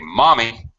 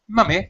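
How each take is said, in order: First: The first vowel is an open 'ah' sound. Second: The first vowel is a short 'uh' sound. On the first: "But Americans say mommy" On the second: "I know Brits say mummy"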